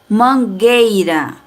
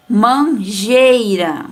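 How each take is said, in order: First: "Mangueira" devagar, G duro sem som de U; pronúncia correta. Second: "Manjeira" dito devagar, com som de J no lugar de G; pronúncia errada. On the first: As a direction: diga "Mangueira" com G de gato, sem U. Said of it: "não pronunciamos a vogal U". (mostra a pronúncia certa de "Mangueira") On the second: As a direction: exagere o erro: "Manjeira" com J. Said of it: "vai ficar como". (mostra a pronúncia errada sem o U, com som de J) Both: Shown as a demonstration.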